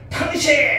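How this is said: The word is said sharply and angrily. The speaker is fighting with the listener. The speaker calls it wrong. "싸울 때 그잖아"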